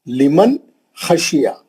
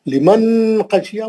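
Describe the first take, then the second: First: The n is short, without nasal hum. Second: The n is held long with nasal hum. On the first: The speaker calls it right. "नून को जल्दी पढ़ना" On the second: The speaker calls it wrong. "बोले तो गलत"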